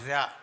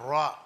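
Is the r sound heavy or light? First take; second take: light; heavy. First: The r sound is light and thin. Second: The r sound is heavy and full. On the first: "രാ എന്ന രൂപ അക്ഷ ഉച്ചാരണത്തോടു കൂടിയാണ്" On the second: "ഒന്ന് ഒന്ന് കനപ്പിച്ച് പറയണം"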